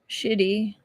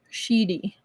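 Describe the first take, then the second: First: The word sounds like English 'shitty'. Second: The word sounds like 'sheedy' with a long vowel. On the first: The speaker calls it wrong. "not shitty" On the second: The speaker calls it right. "Sheedy, not shitty, sheedy"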